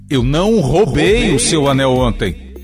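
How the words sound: The stress falls on the word roubei. "vou dar ênfase no verbo"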